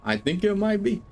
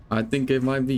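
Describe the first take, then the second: First: Playful high answer. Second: Said in the usual way. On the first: Real, not acted. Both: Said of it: "repeats answer to chat".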